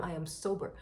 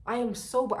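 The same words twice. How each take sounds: First: Said in the usual way. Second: Loud, pushing the word sober; emphatic. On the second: Retold or imitated. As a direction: insist hard, almost shouting. Insisting to the bouncer.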